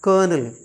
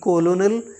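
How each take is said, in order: First: The word has two syllables, 'kur-nel'. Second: The word has three syllables, 'ko-lo-nel'. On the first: The speaker calls it right. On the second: The speaker calls it wrong. "ना कि कोलोनल या कुछ और"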